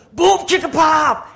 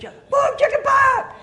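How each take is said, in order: First: High, slow shouted chant; hyped-up pastor. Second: Very high, squealed shout; kids echoing. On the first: Pastor leading kids in a chant, loud shout. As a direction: belt out the chant for repeating. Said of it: "He goes". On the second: Kids repeating after the pastor, very high shout. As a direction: shout it back like excited kids. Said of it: "You know, the kids". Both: Acted.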